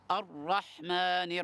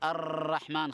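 First: The r sound is heavy and not repeated. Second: The r sound is rolled and repeated. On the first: The speaker calls it right. "نفخمها تفخيمًا ظاهرًا واضحًا بحيث لا يتكرر" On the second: The speaker calls it wrong. "لا نقول الرحمن خطأ، لا نكرر الراء"

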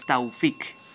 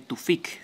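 First: The first syllable has an 'ow' glide. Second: The first syllable has a plain 'oo' vowel. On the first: This is the original Arabic form of the name. "se dice Taufik. Esta es la pronunciación original" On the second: This is the adapted local form of the name. "en el original árabe no se dice Tufik"

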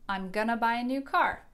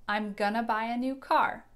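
First: Going to is reduced to gonna. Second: The same.

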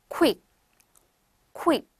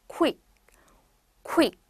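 The two takes are said the same way.

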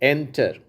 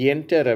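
First: The word starts directly with the vowel. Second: A y glide is added before the vowel. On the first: The speaker calls it right. "ஆனால் அது என்டர்" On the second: The speaker calls it wrong. "நம்ம இந்தியர்கள் என்டர் அப்படிங்கிறாங்க"

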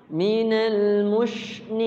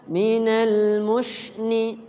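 No difference in how they are said.

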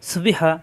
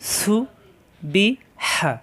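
First: The syllables are said quickly without pauses. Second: The syllables are said separately with pauses.

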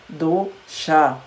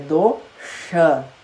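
First: The sh sound is made with a flat tongue. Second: The sh sound is made with tongue curled back. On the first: The speaker calls it wrong. "A palavra dosha não é do-cha" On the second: The speaker calls it right. "é do-cha ... Põe a língua no céu da boca"

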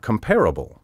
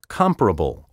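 First: The stress is shifted to another syllable. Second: The stress is on the traditional syllable. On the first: The speaker calls it wrong. "so many speakers now misplace the accent" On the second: The speaker calls it right. "my first pronunciation of each word was the proper one"

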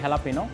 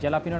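First: The word begins with an H sound. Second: The word begins with a J sound. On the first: This is the authentic Mexican pronunciation. The speaker calls it right. "Actual Mexican word এবং pronunciation" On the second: This is how most people commonly say it. The speaker calls it wrong. "এটাকে সবাই জ্যালাপিনো নামে চিনে"

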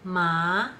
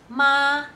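First: The syllable carries the second of four tones. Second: The syllable carries the first of four tones. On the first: The word means numb. "ma will have four tones" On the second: The word means mother. "ma will have four tones"

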